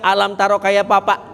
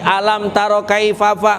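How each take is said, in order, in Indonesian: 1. Frasa ini diucapkan dengan bunyi p sebagai gantinya. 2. Frasa ini diucapkan dengan bunyi f yang jelas. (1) "Yang dibaca sama dia" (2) "suruh ngaji"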